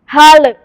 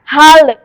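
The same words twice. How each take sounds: First: The final L is released with a bounce. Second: The final L is released with a bounce.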